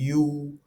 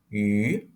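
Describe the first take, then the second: First: The vowel is a back rounded 'oo'. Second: The vowel is a fronted rounded 'ü'. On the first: The speaker calls it wrong. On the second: The speaker calls it right.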